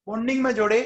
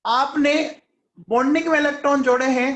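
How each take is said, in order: First: Said in the usual way. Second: Quick, louder push on bonding में, higher pitch; emphatic question. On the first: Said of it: "या anti bonding में". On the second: Shown as a demonstration. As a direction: press the students hard on bonding में. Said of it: "या anti bonding में जोड़े हैं". (Bonding में पर ज़ोर, तेज़ और ऊँची आवाज़ में)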